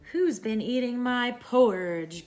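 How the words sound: It is said in a deep growling voice.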